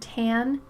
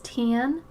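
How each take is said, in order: First: The vowel sounds like the one in cat. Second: The vowel sounds closer to the one in tin. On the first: "instead of saying tan" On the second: "he says tan, like tin"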